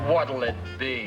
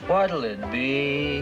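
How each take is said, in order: First: It is said in a rude, curt way. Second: It is said in a friendly, pleasant way.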